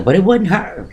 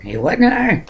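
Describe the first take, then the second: First: Said in the usual way. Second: "It wasn't her" repeated way up high; emphatic repeat, pitched up. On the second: Shown as a demonstration. To viewers, stressing it wasn't sister: "wasn't" high.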